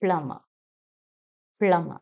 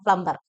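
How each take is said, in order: First: പ്ലംബർ as "PLUM-muh", no B; silent B. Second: പ്ലംബർ as "plum-bar", B pronounced; sounded B, wrong. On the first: Teacher models the correction, silent B. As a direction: go from M straight to the last vowel in പ്ലംബർ. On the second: Teacher quotes the common way, B sounded. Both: Shown as a demonstration. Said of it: "അവിടെയും B silent ആണ്".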